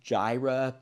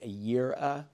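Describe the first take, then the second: First: The word begins with a J sound. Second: The word begins with a Y sound. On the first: The speaker calls it wrong. "older pronunciations" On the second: The speaker calls it right. "is probably better pronounced Yireh"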